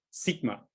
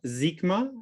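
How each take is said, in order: First: "sigma" with a voiced z, zigma; German-accented sigma. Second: "sigma" with a crisp voiceless s, slowed. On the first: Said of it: "not sigma, like I would like to say in my German accent". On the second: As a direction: start "sigma" with a clean hissed s, not a z. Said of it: "but sigma with a voice, uh, voiceless alveolar fricative". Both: Shown as a demonstration.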